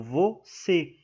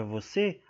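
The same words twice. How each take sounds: First: "você" broken slowly into two syllables; "você" drawn out syllable by syllable; split into syllables. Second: Said in the usual way. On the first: Shown as a demonstration. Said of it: "está acentuada". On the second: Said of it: "O você".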